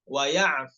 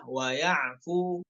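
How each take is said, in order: First: "wa ya'f" cut short; short ending. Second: Slow "Wa ya'fu" with a lengthened fu; wrong long vowel. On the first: Teacher giving the short correct ending. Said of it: "pendek ya". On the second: Teacher showing the wrong length. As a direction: draw out "Wa ya'fu" as two counts. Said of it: "bukan wa ya'fu". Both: Shown as a demonstration.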